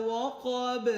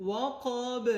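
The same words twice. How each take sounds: No difference in how they are said.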